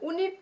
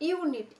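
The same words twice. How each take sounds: First: উনিট said with a plain short oo sound at the start, no y glide; wrong pronunciation. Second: ইউনিট begun with a clear you sound, yoo-nit; correct pronunciation. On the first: Teacher showing students the wrong way, উনিট starting with a bare oo. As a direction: say উনিট as oo-nit, the way it is not said. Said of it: "তো বলছি না". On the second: Teacher showing students the right way, ইউনিট begun with you. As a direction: start ইউনিট with a y glide into oo. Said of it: "ইউ উচ্চারণ করছি আমরা". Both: Shown as a demonstration.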